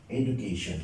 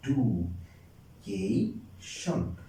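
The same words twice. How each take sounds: First: Said in the usual way. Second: ডু, কে, শন as slow separate beats; very slow teacher's breakdown of ডু, কে, শন; syllable by syllable. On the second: Shown as a demonstration. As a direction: leave a clear gap after each of ডু, কে, শন. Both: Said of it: "এই একবার উচ্চারণ করা যায়".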